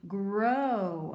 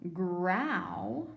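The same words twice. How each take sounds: First: "Grow" with a long O as in snow, louder; long O sound. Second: "growl" said with the ow of cow, drawn out; ow sound as in cow. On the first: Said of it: "Let's try the O sound". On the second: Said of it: "We could try this one". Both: Shown as a demonstration.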